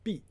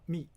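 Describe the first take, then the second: First: The syllable begins with a b sound. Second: The syllable begins with an m sound. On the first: It names a place or river. The speaker calls it right. "you need to pronounce uh, b" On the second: It means to secrete. The speaker calls it wrong. "not me"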